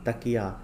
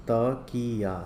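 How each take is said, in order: First: Said in the usual way. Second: Drawn-out त-की-या; syllable by syllable. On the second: Shown as a demonstration. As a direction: read तकिया out in separate syllables. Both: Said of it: "पहले पढ़ लेते हैं".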